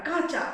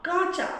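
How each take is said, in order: The two takes are said the same way.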